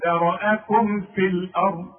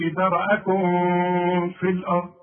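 First: ذرأكم with the meem firmly closed before في; correct clear meem. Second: ذرأكم with the meem hidden into في; the meem slurred and nasal before في; the wrong way. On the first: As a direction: show the meem plainly. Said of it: "شوف". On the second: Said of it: "ما تقولش". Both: Shown as a demonstration.

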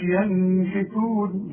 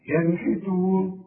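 First: ينحتون with the noon stretched into a long hum; sung, hold a ghunna on the ن of ينحتون before the ح; wrong nasal hum. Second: ينحتون recited slowly, noon short and hum-free; crisp ن straight into ح in a slow ينحتون; clear noon. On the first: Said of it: "ما تقولش". (sung, ينحتون بغنة مطولة على النون بالغلط) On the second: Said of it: "ما تغنش". (ينحتون بنون مظهرة من غير غنة) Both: Shown as a demonstration.

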